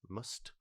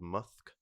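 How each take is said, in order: First: The word ends with a t sound. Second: The word ends with a k sound. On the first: The speaker calls it right. "I think I'll call it must" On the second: The speaker calls it wrong. "If I say musk, it just makes me sound like I've got an... a lisp"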